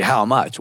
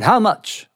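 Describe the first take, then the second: First: Said in the usual way. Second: Blunt, higher New York Yiddish question; haggling New York Yiddish uncle; New York Yiddish accent. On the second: Acted. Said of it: "that New York Yiddish accent".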